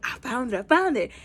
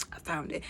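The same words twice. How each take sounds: First: Mildly excited, rising on the repeat; happy announcement. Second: Low, hushed retold find; quiet discovery. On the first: Retold or imitated. Runner reporting back to the team, happy and mildly excited. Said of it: "she's, like, all happy". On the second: Fast runner finds the coordinates, quietly pleased to herself. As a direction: say it small and low, almost to yourself.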